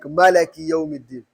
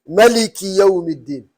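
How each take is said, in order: First: The vowel after the L is 'a'. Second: The vowel after the L is 'i'. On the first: The speaker calls it wrong. "There is no qira'ah that will read it like" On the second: The speaker calls it right. "you can never change this lam kasra"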